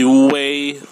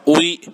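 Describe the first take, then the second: First: An e-like vowel sounds between u and i. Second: It is said as plain u then i. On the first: The speaker calls it right. "ada E-nya jadi wei" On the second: The speaker calls it wrong. "dibacanya bukan ui"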